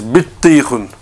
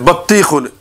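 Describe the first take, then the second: First: The first vowel is an 'i' sound. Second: The first vowel is an 'a' sound. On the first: The speaker calls it right. "it's bittikhun. ... the bar's got a kasra" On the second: The speaker calls it wrong. "It says battikhun. It's not"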